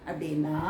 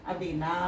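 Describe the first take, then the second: No difference in how they are said.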